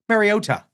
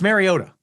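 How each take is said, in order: First: The last t is pronounced crisply and fully. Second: The last t is slurred through, not fully pronounced. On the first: The speaker calls it wrong. "They kept calling him Mariota" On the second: The speaker calls it right. "Just just slur through the last T"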